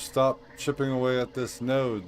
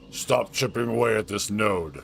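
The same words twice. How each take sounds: First: It is read in the speaker's normal voice. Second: It is read in a put-on character voice. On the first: The speaker calls it wrong. "Should probably read that differently" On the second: The speaker calls it right. "He is a Krogan after all"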